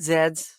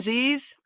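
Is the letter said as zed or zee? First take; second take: zed; zee. First: The letter is said as zed. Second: The letter is said as zee.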